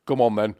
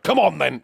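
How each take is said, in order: First: Mild, friendly invitation; cute. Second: Louder, higher irritated order; angry. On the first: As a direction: say it too nicely. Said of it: "But he didn't say, "I've said that cute". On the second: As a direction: order them in angrily. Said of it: "he was angry about it". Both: Retold or imitated.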